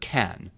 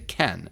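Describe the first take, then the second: First: The vowel sounds like the one in 'cat'. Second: The vowel sounds like the one in 'Ken'. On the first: The speaker calls it wrong. "No one says can" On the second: The speaker calls it right. "They say Ken"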